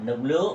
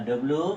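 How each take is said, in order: Both takes have the same delivery.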